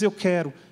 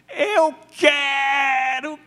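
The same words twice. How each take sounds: First: It is said in a flat, plain tone. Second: It is said in an eager, warm tone. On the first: The speaker calls it wrong. "Jesus não disse isso" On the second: The speaker calls it right. "cara, eu estou aqui para isso, cara. É assim"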